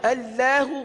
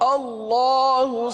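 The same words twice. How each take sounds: First: The L sound is thin and light. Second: The L sound is full and heavy. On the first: The speaker calls it wrong. "अल्लाहु गलत" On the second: The speaker calls it right. "दुरुस्त अदायगी सुनिए"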